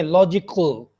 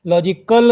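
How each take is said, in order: First: लॉजिकल ending in syllabic L, no schwa after क; no schwa before L. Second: लॉजिकल ending in a clear "-kəl", schwa sounded; wrong schwa version. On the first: Teacher corrects it, लॉजिकल without schwa before ल. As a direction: run क straight into a dark ल in लॉजिकल. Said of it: "ख और ल के दरमियान शुआ sound नहीं". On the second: Teacher shows the mistake, लॉजिकल with schwa before ल. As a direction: put a full vowel between क and ल in लॉजिकल. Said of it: "नहीं है". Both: Shown as a demonstration.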